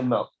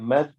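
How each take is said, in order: First: The syllable is heavy, with a full-mouth vowel. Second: The syllable is light, with a thin vowel. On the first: The speaker calls it right. "we say mouth. Dha is a full mouth letter" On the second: The speaker calls it wrong. "We don't say mad"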